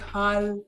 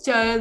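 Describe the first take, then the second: First: The word begins with an h sound. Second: The word begins with a ch sound.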